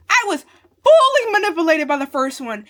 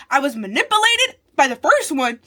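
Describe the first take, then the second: First: "fully" punched high and very loud; stress on FULLY. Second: Loud protest peaking on "manipulated"; emphatic outburst. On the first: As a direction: blast out "fully", then come down through the rest. Repeats claim, intensifying with "fully. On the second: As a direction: exclaim it, hitting "manipulated" loudly. First take of an emphatic repeated claim. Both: Real, not acted.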